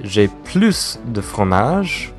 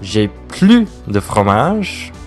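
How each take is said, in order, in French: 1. Le s à la fin de 'plus' se prononce. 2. Le s à la fin de 'plus' est muet. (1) "ça veut dire qu'il y en a encore" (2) "ça veut dire que tous les fromages est fini"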